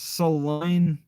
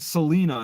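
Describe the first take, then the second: First: The middle syllable sounds like 'lie'. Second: The middle syllable sounds like 'lee'. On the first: The speaker calls it right. "It's saline, so like saliva" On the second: The speaker calls it wrong. "I keep saying Selena"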